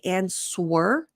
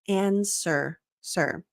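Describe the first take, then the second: First: A W sound is pronounced in the middle. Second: No W sound is heard in the middle. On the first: The speaker calls it wrong. "The amount of times I hear non-native speakers say answer" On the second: The speaker calls it right. "the W is silent"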